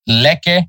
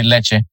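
First: "Lecce" said "LEH-keh" with a hard K; "Lecce" with K in the middle, as read; hard K version. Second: "Lecce" said "LEH-cheh" with a CH sound; Italian CH sound. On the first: Host reading the team list with a hard K. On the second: Host admitting the version he prefers. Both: Shown as a demonstration. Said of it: "I really wanna say Lecce".

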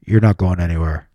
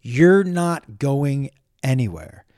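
First: Low, menacing man on a recording; imitated deep male voice; man's voice. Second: Slowly quoted, word by word; slow, deliberate quote. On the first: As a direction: drop deep for a stranger's voice. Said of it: "a man's voice goes". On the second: Retold or imitated. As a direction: own voice, drawn out slowly. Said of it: "nowhere on there does it say".

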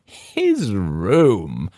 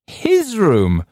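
First: Said in the usual way. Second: High, loud mocking shriek; woman on the right shrieking in derision. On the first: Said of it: "echoed she on my left". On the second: A narrator's reading. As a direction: shriek it back at him in scorn. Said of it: "shrieked the woman".

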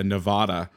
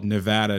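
First: "Nevada" with a broad "ah", as in "father"; broad-A pronunciation. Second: "Nevada" with a flat A, as in "mad"; flat-A pronunciation. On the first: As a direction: say "Nevada" as nuh-VAH-duh. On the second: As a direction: say "Nevada" as nuh-VAD-uh. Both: Shown as a demonstration. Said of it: "I called Nevada, Nevada".

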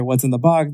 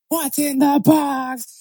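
First: Said in the usual way. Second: Very high, drawn-out mock wail; mocking movie quote. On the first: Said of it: "whenever people, like, hear". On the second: Friend mocking people who quote Seven, high slow parody. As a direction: squeal it slowly, parodying everyone who quotes it. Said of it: "then everybody's just".

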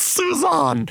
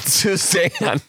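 First: "Suzanne" as soo-ZAHN, high and drawn out; corrected pronunciation. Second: "Suzanne" with a short A, as in "pan"; wrong pronunciation. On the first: Host corrects the contestant's name, high-pitched soo-ZAHN for "Suzanne". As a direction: say "Suzanne" with a long AH in the stressed end. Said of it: "Not Suzanne". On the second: Host rejects the common version of the name, flat-A "Suzanne". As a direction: say "Suzanne" the ordinary way, rhyming with "can", drawn out through a laugh. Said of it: "It's Suzanne". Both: Shown as a demonstration.

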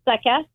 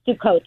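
First: "Sukkot" said SUK-us, stressed up front. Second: "Sukkot" said soo-KOHT, stressed on the end; modern Hebrew pronunciation. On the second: Rabbi correcting gently for the host, modern Hebrew pronunciation. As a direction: say "Sukkot" with a long final o and hard t. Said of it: "pronouncing it with the modern Hebrew accent". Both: Shown as a demonstration.

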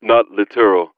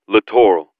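First: Littoral said like "literal", lit-er-al; mispronounced. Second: Littoral said lə-TOR-al, stress on the second syllable; correct pronunciation. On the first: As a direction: littoral with stress on the first syllable, run together. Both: A narrator's reading.

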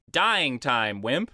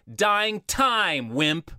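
First: "dying" stressed, "time" falling away after it. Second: "time" punched high and loud in "Dying time"; misplaced stress on time. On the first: Shown as a demonstration. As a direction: put the emphasis on "dying", said more evenly. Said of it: "the emphasis should be". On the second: Retold or imitated. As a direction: lean hard on "time" instead of "Dying". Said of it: "where the emphasis should be".

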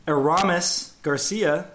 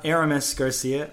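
First: "Aramis" said uh-RAH-mis; "Aramis" leaning on the long "ah"; stress on RA. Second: "Aramis" said AIR-uh-mis; "Aramis" front-stressed, middle reduced; stress on first syllable. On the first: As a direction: stress the middle syllable of "Aramis". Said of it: "putting the stress on the Ra". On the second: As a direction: hit the opening "Air" of "Aramis". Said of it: "not Aramis Garcia". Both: Shown as a demonstration.

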